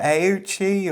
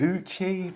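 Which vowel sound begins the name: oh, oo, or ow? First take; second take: ow; oo. First: The name begins with an 'ow' sound. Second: The name begins with an 'oo' sound. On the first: "I thought it was" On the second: "I thought it was"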